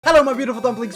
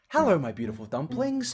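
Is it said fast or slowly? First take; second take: fast; slowly. First: It is said very fast. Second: It is said slowly and calmly.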